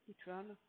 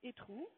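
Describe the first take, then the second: First: It is pronounced like an English word. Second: It is pronounced like a French word. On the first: It sounds like the word for electronic. The speaker calls it right. "si on le prononce à l'anglaise" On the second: It sounds like the French word for excrement. The speaker calls it wrong. "le mot e-tron en français ça signifie excrément"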